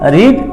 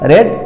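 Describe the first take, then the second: First: The vowel is long, like 'ee'. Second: The vowel is short, like 'e'. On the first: It is the present form. "রিডের present form রিড" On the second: It is a past form. "উচ্চারণটা আলাদা"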